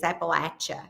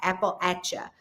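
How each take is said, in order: First: The middle sounds like 'apple at'. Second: The middle sounds like 'apple at'.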